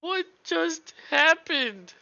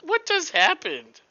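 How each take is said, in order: First: Stunned slow disbelief. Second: High, loud stunned question; shocked disbelief. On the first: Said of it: "repeats the question". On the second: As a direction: ask it in disbelief. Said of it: "first take". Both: Real, not acted.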